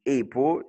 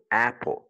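First: "apple" said wrongly as "ay-pple"; mispronounced long A. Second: "apple" with the short open A of "cat". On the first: Retold or imitated. Teacher imitating learners who misread apple, wrong long A. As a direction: open "apple" with a long AY sound. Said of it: "les gens qui disent apple, ils tuent les natifs". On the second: Shown as a demonstration. Teacher modelling the correct word for learners, short A. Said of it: "te force à utiliser le son court".

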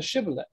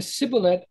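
First: "shibboleth" with sh at the front; sh pronunciation. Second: "sibboleth" with a plain s at the front; s pronunciation. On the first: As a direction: say "shibboleth" opening on sh, not s. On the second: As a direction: say "sibboleth" opening on s, not sh. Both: Shown as a demonstration. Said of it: "how the sounds were, were reversed".

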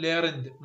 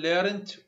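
First: "learned" ending in a voiced d, falling; final d sound. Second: "learned" ending in a t, slow, pitch rising; final t sound. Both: Shown as a demonstration. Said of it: "مرة إيدي ومرة تي".

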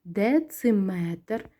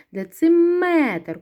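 First: Дециметр drawn out slowly, syllable by syllable; slow, careful dictation of дециметр; slow checking dictation. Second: Дециметр with a long, louder МЕ; stress on МЕТР. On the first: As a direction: read дециметр slowly, each syllable separated. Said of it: "перевіряємо". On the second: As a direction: lean hard on the МЕ in дециметр. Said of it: "Куди падає наголос?". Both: Shown as a demonstration.

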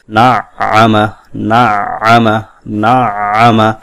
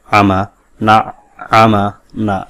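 First: না আমা slow, the tashdid held and the voice kept running. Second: আমা said with the sound stopped short after না; না then আমা clipped, voice cut between them; cut off with saqta. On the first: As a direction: stretch না into আমা without a break. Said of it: "এভাবে". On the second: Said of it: "এভাবে সাক্ত করা যাবে না". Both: Shown as a demonstration.

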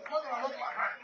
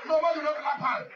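First: Laughing repeat. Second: Raised, emphatic call to the crowd; loud call. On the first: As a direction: let it dissolve into a chuckle. Same line, repeated with laugh. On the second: Speaker to the rally crowd, a loud call. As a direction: hammer it home over the crowd. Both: Real, not acted.

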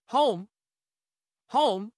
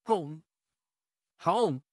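First: Loud calling. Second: Said in the usual way. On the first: Acted. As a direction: call out to the house. Calling louder to the house.

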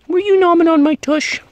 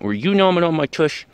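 First: Squeaky pet talk. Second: Said in the usual way. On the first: Real, not acted. Asking the puppy who nipped, loud squeaky pet voice.

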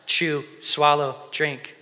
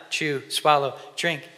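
The two takes are said the same way.

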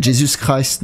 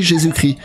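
First: Jesus Christ tried in English with a French accent, /ʒezys kʀas/; Jesus Christ said as English Jesus Christ, still French-accented; Jesus Christ attempted the English way; English pronunciation. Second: Jésus-Christ said the French way, /ʒezykʀi/ with a French j and no final st; Jésus-Christ in plain French, zhay-zu-kree; Jésus-Christ, French sounds; French pronunciation. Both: Shown as a demonstration. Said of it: "faut le dire en anglais".

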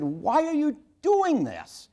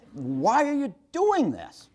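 First: High, slow, drawn-out demanding why; father pressing his son to explain, held back from yelling; earnest anger. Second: High and slow, stretching each word; earnest anger. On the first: Father to six-year-old son peeing in wastebasket, stern earnest anger. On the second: Father repeating himself at his frightened son, stern earnest anger. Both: Retold or imitated. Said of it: "the anger in my voice".

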